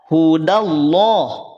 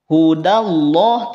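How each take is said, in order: The two takes are said the same way.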